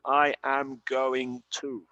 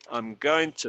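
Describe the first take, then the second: First: I am is said as two full words. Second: I am is contracted into one syllable. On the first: The speaker calls it wrong. "no dicen I am going to" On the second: The speaker calls it right. "dicen I'm going to sell the car"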